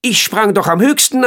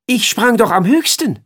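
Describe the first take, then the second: First: High, louder insisting flea voice. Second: High, louder indignant flea voice. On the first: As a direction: repeat it as a stubborn little flea. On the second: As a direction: squeak it out like a proud little flea. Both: Acted. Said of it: "sagte der Floh".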